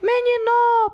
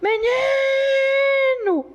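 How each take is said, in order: First: The stress is on the last syllable. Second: The stress is on the middle syllable. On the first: The speaker calls it wrong. "Não é o noa forte" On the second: The speaker calls it right. "É esse aqui que se estende"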